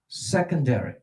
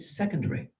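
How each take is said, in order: First: It is said with an American accent. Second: It is said with a British accent. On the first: "I'm using American pronunciation" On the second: "The British say secondary"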